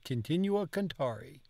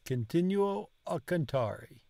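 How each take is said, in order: First: The final o of continuo is dropped. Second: The final o of continuo is clearly pronounced. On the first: "She didn't" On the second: "He said it all"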